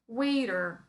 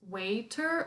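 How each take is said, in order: First: Said in an American accent with a soft t. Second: Said in a British accent with a clear t. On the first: "Americans will say waiter" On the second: "in British English, this is usually pronounced waiter, like true T"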